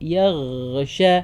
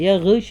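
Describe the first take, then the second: First: The gh sound is held long and flowing. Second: The gh sound is clipped short. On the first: The speaker calls it right. "നല്ല ടൈം കൊടുത്ത് നല്ല ഒഴുക്കി പറയുക" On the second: The speaker calls it wrong. "അല്ല"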